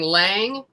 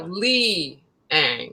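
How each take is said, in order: First: The name is said as one syllable. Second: The name is said as two syllables. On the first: The speaker calls it wrong. "everybody kept saying Lang" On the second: The speaker calls it right. "no, Li Ang"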